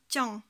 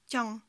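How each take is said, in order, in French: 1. La voyelle est coupée courte. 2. La voyelle est coupée courte.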